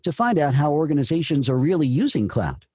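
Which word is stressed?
using. The stress falls on using.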